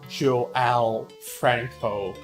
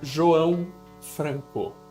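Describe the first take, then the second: First: The name is said with an American accent. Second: The name is said with a Portuguese accent. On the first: "And in English, you'd go" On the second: "In Portuguese, you'd call it"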